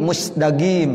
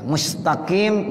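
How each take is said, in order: First: Egyptian "musdagim", hard g for qaf; Egyptian dialect. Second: Slow standard "mustaqim"; standard qaf. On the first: Teacher imitating Egyptians, Egyptian-dialect "musdagim". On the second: Teacher giving the standard form, "mustaqim" with qaf. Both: Shown as a demonstration. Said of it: "dialek orang Mesir".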